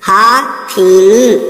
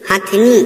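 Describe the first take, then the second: First: The word has three syllables with long vowels. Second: The word has two syllables with short first vowel. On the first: The speaker calls it wrong. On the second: The speaker calls it right.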